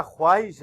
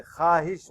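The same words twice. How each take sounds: First: خواہش with the waw sounded, khwahish; wrong pronunciation. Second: خواہش with silent waw, said khahish; correct pronunciation. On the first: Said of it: "یہ غلط ہے". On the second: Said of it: "واو نہیں پڑھیں گے". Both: Shown as a demonstration.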